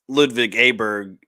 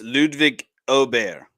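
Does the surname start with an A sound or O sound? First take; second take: A sound; O sound. First: The surname begins with an A sound. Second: The surname begins with an O sound. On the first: This is the American way of saying it. "it's Ludwig Aberg if you're in the United States" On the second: This is the Swedish way of saying it. "in Sweden it's Ludwig Ober"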